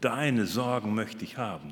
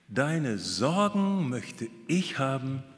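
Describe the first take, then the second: First: The word 'deine' carries the strong stress. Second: The word 'deine' carries no strong stress. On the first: The other person's worries seem small compared to one's own. "wir betonen so" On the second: The speaker wants to take over the other's worries. "Aber wir betonen das anders"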